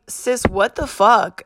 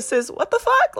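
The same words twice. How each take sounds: First: Slow, drawn-out retold disbelief at normal pitch. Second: High-pitched disbelief. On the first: Reacting to sister's text, drawn-out disbelief. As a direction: stretch it out, half speed, incredulous. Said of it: "And I was like". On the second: Retold or imitated. Acting out reaction to sister's text, high-pitched disbelief. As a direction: pitch leaps way up in playful incredulity. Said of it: "it was like a".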